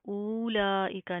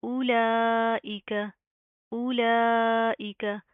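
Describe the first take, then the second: First: उलाइका with the opening उ stretched into a long ऊ; wrongly long first vowel. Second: उलाइका with short उ and a long, loud ला; short opening, ला held long and strong in उलाइका; long stretched laam. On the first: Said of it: "हमज़ा वाव पेश ऊ नहीं करना". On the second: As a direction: recite उलाइका slowly, pulling out the ला. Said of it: "इसको हम लंबा करेंगे". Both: Shown as a demonstration.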